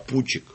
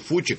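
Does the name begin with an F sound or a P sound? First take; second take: P; F. First: The name begins with a P sound. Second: The name begins with an F sound. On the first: This is how Georgian speakers say it. "а Пучик, потому что у нас буквы П нету" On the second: This is the usual pronunciation. "грузины произносят не Фучик"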